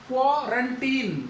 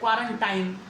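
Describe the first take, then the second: First: The last syllable sounds like 'teen'. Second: The last syllable rhymes with 'time'. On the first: The speaker calls it right. "टाइम नहीं है वो" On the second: The speaker calls it wrong. "बहुत से लोगों को आदत अभी भी पड़ी है, क्वारंटाइन बोलते हैं"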